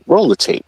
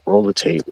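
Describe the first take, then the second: First: It is said in a defiant, challenging tone. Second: It is said in a sad, somber tone.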